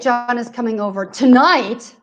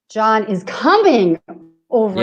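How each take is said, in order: First: The stress is on tonight. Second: The stress is on coming.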